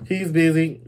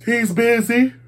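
First: Said in the usual way. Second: Much higher, squealed-up quote; high-pitched exclamation. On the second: Retold or imitated. Host quoting Wendy about her date, high-pitched. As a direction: pitch it way up, rising at the end.

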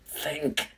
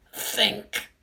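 First: Quiet pleading self-prompt, "think" half-breathed; soft urgent think. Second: "think" pushed up high and tense; high urgent think. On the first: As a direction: whisper "think" to yourself, pleading. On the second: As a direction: squeeze out "think" high and desperate. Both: Acted. Urging himself to think.

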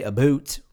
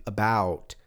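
First: Mock Canadian vowel on "about"; Canadian accent. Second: Said in the usual way. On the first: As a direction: say "about" as "a boot," Canadian-style. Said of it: "I know they say". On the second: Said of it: "pronounce the U".

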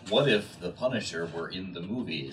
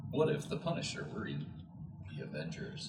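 First: Lightly hammed-up episode title, amused; mock title reading. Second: Lower, softer mock episode title; understated title reading. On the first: Friend joking about a What If episode, mock title reading. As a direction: pitch it as a joke title with a laugh. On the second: Friend reworking the joke episode title, understated mock reading. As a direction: drop to a hushed, deadpan title. Same title tried again, subdued.

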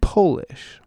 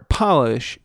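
First: POLISH as POH-lish, with a long O; nationality Polish. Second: POLISH as PAH-lish, short first vowel; verb polish. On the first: Host contrasting heteronyms, Polish said POH-lish. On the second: Host contrasting heteronyms, polish said PAH-lish. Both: Shown as a demonstration. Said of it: "the heteronyms are".

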